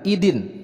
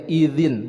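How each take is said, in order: First: The middle consonant is a hard 'd' sound. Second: The middle consonant is a soft 'dh' sound. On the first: The speaker calls it wrong. "bukan idin" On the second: The speaker calls it right. "huruf za bukan huruf da"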